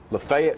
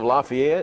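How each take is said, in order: First: It is said the local Tennessee way. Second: It is said the ordinary, standard way.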